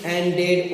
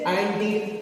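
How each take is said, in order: First: एंडेड with an open "ed" sound at the end; wrong ending. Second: एंडिड with a short, light "id" at the end; correct ending. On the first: Teacher showing the wrong एंडेड to students, careful. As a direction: say एंडेड as "en-ded", the form to avoid. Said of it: "न कि". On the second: Teacher modelling एंडिड for students, clear and careful. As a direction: say एंडिड as "en-did", never "en-ded". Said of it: "इसे एंडिड कहिएगा". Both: Shown as a demonstration.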